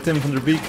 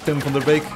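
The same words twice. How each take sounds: First: The name is said with English sounds. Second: The name is said with Dutch sounds. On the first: "if you pronounce his name in English" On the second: "if you pronounce it in Dutch"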